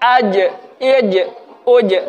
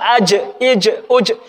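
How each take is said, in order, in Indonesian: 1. Setiap j di akhir berhenti bersih tanpa nafas. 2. Setiap j di akhir mengeluarkan sedikit nafas. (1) "kalau tidak keluar nafas" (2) "Kalau keluar nafas salah"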